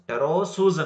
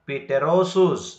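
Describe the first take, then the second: First: The word starts with a t sound, no p. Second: The word starts with a p sound before t. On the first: The speaker calls it right. "ಟೆರೋಸೂಸ್ ಅನ್ಬೇಕು" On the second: The speaker calls it wrong. "Don't say ಪಿಟೆರೋಸೂಸ್"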